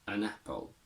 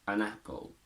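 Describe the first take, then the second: The two takes are said the same way.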